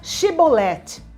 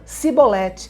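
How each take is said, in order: First: The word begins with an 'sh' sound. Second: The word begins with an 's' sound. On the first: The speaker is not from the tribe of Ephraim. The speaker calls it right. "Diga Shibolete" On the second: The speaker is from the tribe of Ephraim. The speaker calls it wrong. "Eles diziam Sibolete"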